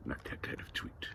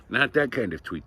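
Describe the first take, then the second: First: Near-whispered, very soft correction; hushed aside. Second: Said in the usual way. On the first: Shown as a demonstration. Correcting the kind of tweet.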